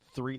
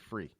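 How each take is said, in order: First: The word begins with a 'th' sound. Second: The word begins with an 'f' sound. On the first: "T H, three" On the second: "the English uh, Cockney accent ... they say free"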